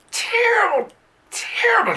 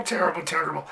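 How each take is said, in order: First: High squealed terrible, terrible; mock outraged squeak; hammed-up squeal. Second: Said in the usual way. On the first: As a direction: squeak the word terrible up high for comic effect. Exaggerated repetition.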